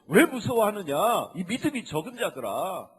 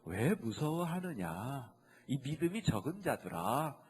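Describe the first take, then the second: First: It is said sternly, as a rebuke. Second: It is said softly and comfortingly.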